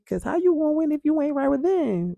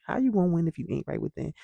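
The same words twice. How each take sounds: First: Much higher and louder, proclaimed; belted catchphrase. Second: Said in the usual way. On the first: Shown as a demonstration. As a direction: shout the motto like it's stuck in your head. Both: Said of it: "that lives in my head rent free".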